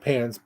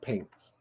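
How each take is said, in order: First: The vowel is a plain short a. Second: The vowel is drawn out, sounding like paints. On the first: "they're probably saying pants" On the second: "but it comes out paints"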